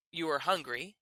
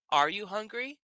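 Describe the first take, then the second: First: Said in the usual way. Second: "hungry" lifted at the end as a question; question intonation. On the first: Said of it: "To say". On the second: Shown as a demonstration. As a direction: ask it, voice rising on "hungry". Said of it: "But if you want to ask".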